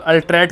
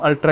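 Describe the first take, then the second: First: The word ends with a t sound. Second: The word ends with an open vowel. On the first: This follows the printed spelling. "यहाँ पर अल्ट्रैट करके लिखा है" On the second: This is easier to say. "हम अल्ट्रा ही pronounce करेंगे क्योंकि टी थोड़ा सा टंग ट्विस्ट कर देगा"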